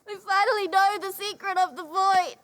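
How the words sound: It sounds tearful and sad.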